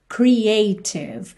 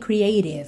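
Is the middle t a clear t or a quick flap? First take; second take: clear t; flap. First: The middle t is a clear t sound. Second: The middle t is a quick flap sound.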